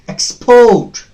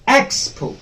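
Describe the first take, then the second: First: The stress is on the second syllable. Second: The stress is on the first syllable. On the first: The word is used as a verb. "When the second syllable is stressed, stressed the same word behaves as uh, a verb" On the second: The word is used as a noun. "when the first syllable is stressed, it behaves as noun"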